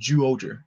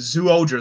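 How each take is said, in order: First: The name begins with a j sound. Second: The name begins with a plain z sound. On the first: The speaker calls it right. "but it's pronounced Zooja" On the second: The speaker calls it wrong. "I've been saying Zooja the whole time"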